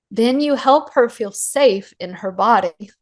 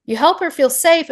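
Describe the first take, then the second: First: Said in the usual way. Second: Moved almost to tears, higher pitch; tearing up. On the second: Real, not acted. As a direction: voice lifting higher as tears come. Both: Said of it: "I'm tearing up".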